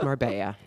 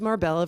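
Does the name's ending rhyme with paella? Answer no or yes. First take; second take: yes; no. First: The ending rhymes with paella. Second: The ending does not rhyme with paella. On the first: The speaker calls it right. "told me it's marbella" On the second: The speaker calls it wrong. "I've been mispronouncing as Marbella for twenty-five years"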